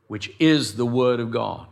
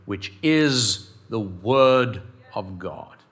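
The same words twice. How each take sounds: First: Said in the usual way. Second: IS and WORD drawn out slowly, low; slow, weighty stress through WORD OF GOD; emphatic verse reading. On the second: Shown as a demonstration. Pastor reading scripture to church, slowly emphatic.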